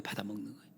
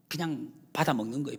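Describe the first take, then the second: First: Dropped soft. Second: Said in the usual way. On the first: Real, not acted. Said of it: "repeated phrase, dropped soft". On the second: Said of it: "repeated phrase, then hushed".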